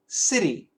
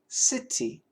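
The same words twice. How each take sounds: First: The middle t is a quick d-like flap. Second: The middle t is a clear, crisp t. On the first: "the typical American pronunciation would be" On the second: "the British pronunciation would be"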